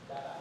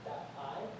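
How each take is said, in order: First: The T is a quick soft flap. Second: The T is a crisp, clearly released T. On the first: The speaker calls it right. "it usually changes to a G sound" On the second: The speaker calls it wrong. "instead of being that I"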